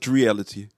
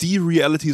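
First: It starts with a fused 'Dre' cluster. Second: It starts with a separate syllable 'die'. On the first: The speaker calls it right. "sondern Dreality" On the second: The speaker calls it wrong. "Also nicht die Reality"

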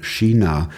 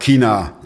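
First: The word starts with a soft, hissing sound. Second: The word starts with a hard k sound. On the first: "hier sagt man China" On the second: "Der Schwabe sagt China"

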